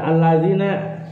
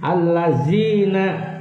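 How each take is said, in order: First: The middle consonant is a soft 'dh' sound. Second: The middle consonant is a buzzing 'z' sound. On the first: The speaker calls it right. "Alladzina itu menggunakan zal" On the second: The speaker calls it wrong. "pakai zai itu"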